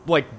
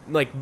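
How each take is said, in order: Both takes have the same delivery.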